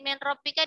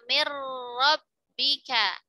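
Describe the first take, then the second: First: The n sound is kept before the r. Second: The n merges fully into a doubled r. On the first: "Sama seperti min rabbika" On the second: "dibacanya mir rabbika"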